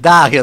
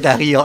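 First: The name is said with an Italian pronunciation. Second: The name is said with a Spanish pronunciation. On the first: "Darío los tanos" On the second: "Darío en castellano"

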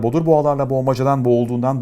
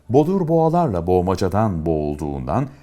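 First: The phrase is read as fast as possible. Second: The phrase is read at a normal speed. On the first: "Şimdi en hızlı şekilde okuyalım" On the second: "Şimdi normal hıza geçelim"

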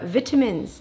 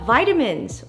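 First: It is said in a British accent. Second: It is said in an American accent.

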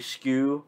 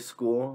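First: The word is said in an angry put-on voice. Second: The word is said in a normal voice. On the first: "when he gets so pissed off, he would also say skew" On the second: "He wouldn't say school, like normal tone"

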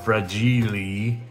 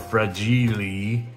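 First: The word is said in a quirky put-on way. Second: The word is said in a quirky put-on way.

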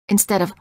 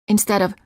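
The two takes are said the same way.

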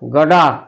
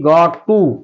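First: It is blended into one reduced word. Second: It is said as two separate full words.

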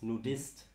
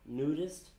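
First: The word has a German pronunciation. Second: The word has an English pronunciation. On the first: The speaker calls it right. "but it's nudist. So that's the German word" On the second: The speaker calls it wrong. "it's not nudist"

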